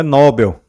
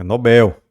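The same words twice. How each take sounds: First: Nobel stressed on the first syllable, NÓ-bel; Nobel as the common mistake, NÓ-bel; wrong stress. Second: Nobel stressed on the last syllable, no-BEL; Nobel the right way, no-BEL; correct stress. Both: Shown as a demonstration. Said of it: "Não é Nobel, é Nobel".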